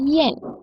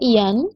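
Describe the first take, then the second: First: The vowel before the n sounds like 'e'. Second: The vowel before the n sounds like 'a'. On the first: The speaker calls it right. "dalam bahasa Mandarin itu dibaca yen" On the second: The speaker calls it wrong. "Kalau dalam bahasa Indonesia ini dibaca ian"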